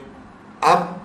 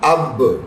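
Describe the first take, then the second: First: The final b stops without any bounce. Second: The final b ends with an echoing bounce. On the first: "बगैर echo sound के" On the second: "इसे echo sound के साथ"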